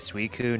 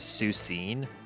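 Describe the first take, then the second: First: The name ends with a 'koon' sound. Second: The name ends with a 'seen' sound.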